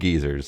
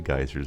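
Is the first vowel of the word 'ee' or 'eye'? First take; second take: ee; eye. First: The first vowel sounds like 'ee'. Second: The first vowel sounds like 'eye'. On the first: This is how people elsewhere say it. "he said geezers, and I think that's their pronunciation" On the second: This is how people here say it. "We say geysers over here"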